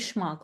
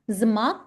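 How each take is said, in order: First: The word begins with a sh sound. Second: The word begins with a z sound. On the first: The speaker calls it right. "it will be schmuck" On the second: The speaker calls it wrong. "Not zmark"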